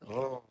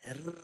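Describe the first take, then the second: First: A heavy, thick trilled r from further back. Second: A light, thin r made with the tongue tip. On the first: The speaker calls it right. "macam ni. Ha, semua empat-empat sifat tu ada. Tebal pun ada, bergetar ada" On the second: The speaker calls it wrong. "jangan guna hujung lidah. R, itu jadi R. ... Dia tak tebal"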